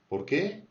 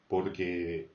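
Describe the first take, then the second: First: The pitch goes up and sounds higher. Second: The pitch is lower, said in one go. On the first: It asks a question: why. "L'accent va vers le haut, c'est un peu plus aigu" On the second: It gives a reason: because. "un peu plus grave et c'est un peu dit d'un même tenant"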